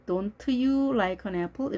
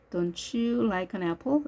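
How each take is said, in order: First: "Don't you" as separate words, T then Y; every sound read. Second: "Don't you" merged into "don-chu"; linked T and Y. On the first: Teacher showing learners what to avoid, unlinked "Don't you". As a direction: slowly release the T in "Don't" before "you". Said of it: "이렇게 다 읽어주지 마시고". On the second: Teacher modelling easier way, "Don't you" as "don-chu". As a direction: slowly blend "Don't you" with a ch sound. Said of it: "이렇게 발음하시면 편합니다". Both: Shown as a demonstration.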